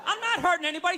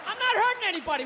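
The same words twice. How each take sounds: First: "not" stressed with a rising, questioning end; rising repeat. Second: "not" hit high and fast with a falling end; fast, defiant "I'm not hurting anybody" with "not" punched; stress on not. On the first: Comic repeating his defence to the crowd, rising and questioning. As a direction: repeat "I'm not hurting anybody" like a shrugging question. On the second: Comic defending himself to the crowd, quick, with "not" stressed. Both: Real, not acted.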